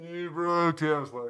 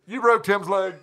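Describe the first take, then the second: First: Slow, drawn-out passing yell; Doppler effect. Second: Yelled out with a laugh. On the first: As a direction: stretch it out like a voice whooshing past. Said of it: "Doppler effect style". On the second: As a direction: call it out across the street, laughing. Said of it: "cups his mouth and yells at me". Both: Retold or imitated.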